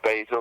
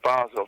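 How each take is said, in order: First: The name is said with an American accent. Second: The name is said with a European accent. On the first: "if you want to say it with an American accent" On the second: "with a European one"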